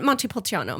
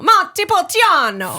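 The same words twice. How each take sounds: First: Said in the usual way. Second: Montepulciano sung out high, loud and slow, every syllable rolled; a grand, slow Montepulciano; proud Italian flourish. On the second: Shown as a demonstration. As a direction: announce Montepulciano with Italian gusto. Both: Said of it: "would you give it to us all together".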